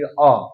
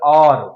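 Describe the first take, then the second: First: It has a British accent with the r silent. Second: It has an American accent with the r pronounced.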